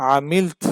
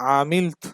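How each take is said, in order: No difference in how they are said.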